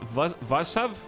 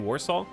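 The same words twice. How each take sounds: First: The name begins with a V sound. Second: The name begins with a W sound. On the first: This is how the locals say it. "the weird W that's pronounced like a V. Wait, did they say" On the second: This is how English speakers say it. "and we say"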